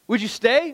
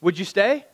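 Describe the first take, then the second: First: "Would you stay?" asked higher, with a pressing rise on "stay"; preacher pressing the congregation with the question a second time; emphatic question. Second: Said in the usual way. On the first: Shown as a demonstration. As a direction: push the question at them, rising on "stay".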